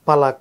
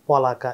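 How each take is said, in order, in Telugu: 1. మొదటి అక్షరం సాధారణ, ఆస్పిరేట్ కాని pa ఉంది. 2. మొదటి అక్షరం రౌండెడ్ o అచ్చుతో ఉంది. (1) "ఇక్కడ పలక అని రాశారనుకోండి" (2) "పొలక ఇంకో రకంగా పలకొచ్చు"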